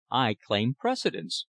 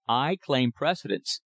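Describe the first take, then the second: First: Calm. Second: Slow, deliberate "I claim precedence" with weight on "I"; firm interruption. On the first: Thorpe calmly answering the lumberman Morrison at the land office counter. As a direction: state it calmly, no heat. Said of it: "replied Thorpe calmly". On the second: Thorpe cutting off Morrison's trap at the counter, slow and firm. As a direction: lean on "I" and slow every word. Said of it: "he interrupted". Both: A narrator's reading.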